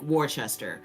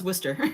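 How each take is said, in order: First: The place name is pronounced the way outsiders say it. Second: The place name is pronounced the way locals say it. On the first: This is how people unfamiliar with the town say it. The speaker calls it wrong. "there's so many people who say like Worcester or mispronounce it" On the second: This is how the town's name is actually said. The speaker calls it right. "no, it's Worcester"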